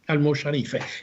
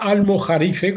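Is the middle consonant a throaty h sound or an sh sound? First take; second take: sh; throaty h. First: The middle consonant is an sh sound. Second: The middle consonant is a throaty h sound. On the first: This is how it was said in the twelfth century. "en el siglo doce lo, se pronunciaba almosharife" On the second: This is the modern way of saying it. "como se decía en aquel entonces"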